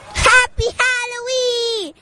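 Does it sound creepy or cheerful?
cheerful. It is said in a plain, cheerful way.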